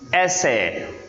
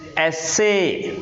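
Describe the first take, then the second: First: The stress is on the first syllable. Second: The stress is on the second syllable. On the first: The word is used as a noun. "when it is noun, it is pronounced as essay" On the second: The word is used as a verb. "When it is a verb, it is pronounced as essay"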